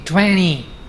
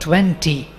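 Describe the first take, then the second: First: The t after the n is dropped. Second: The t after the n is clearly pronounced. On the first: "To disappears completely" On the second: "no more twenty"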